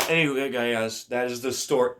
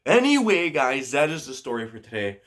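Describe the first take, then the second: First: Said in the usual way. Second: Upbeat sign-off. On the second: Real, not acted. Vlogger wraps up the story for viewers, upbeat sign-off.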